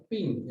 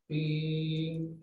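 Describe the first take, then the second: First: A quick, short "pin" falling off; short ping sound. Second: A drawn-out "pin" held longer; longer ping sound. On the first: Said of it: "es así nomás". (un "pin" corto que cae) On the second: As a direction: stretch the "pin" out like a lingering overtone. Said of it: "es más largo". (un "pin" más largo y sostenido) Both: Shown as a demonstration.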